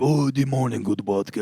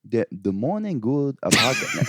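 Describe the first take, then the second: First: Over-the-top Japanese accent. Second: Slow, halting mock Chinese accent. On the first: Showing friends a bad Japanese accent, hammed up. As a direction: lay the Japanese accent on thick as a joke. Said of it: "Japanese one's very ... over the top". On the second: Trying a Chinese accent for friends, slow. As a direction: drag out a bad Chinese accent. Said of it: "the Chinese one's, like, a little more like". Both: Shown as a demonstration.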